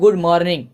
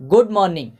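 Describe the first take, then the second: First: The r in morning is pronounced. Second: The r in morning is silent. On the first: The speaker calls it wrong. "ऐसा नहीं कि good मॉर्निंग" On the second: The speaker calls it right. "उसमें बोला जाता है good मॉर्निंग ... इसमें आर को silent किया जाता है"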